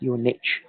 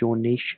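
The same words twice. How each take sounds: First: Niche is said the American way. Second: Niche is said the British way.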